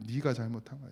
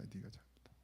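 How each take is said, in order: First: Said in the usual way. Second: Whispered rebuke. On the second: Acted. Pastor voices God's quiet rebuke to himself, whispering. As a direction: repeat 네가 잘못한 거야 as a hushed, unvoiced whisper.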